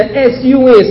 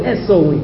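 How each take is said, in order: First: S U N spelled letter by letter; the sky's sun, spelled as letters. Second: S O N spelled letter by letter, quick; the Son, spelled as letters. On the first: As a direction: spell out S U N, each letter distinct. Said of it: "look for the S O N". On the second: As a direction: spell out S O N to set it against the sun. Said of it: "can't see the S U N". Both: Shown as a demonstration.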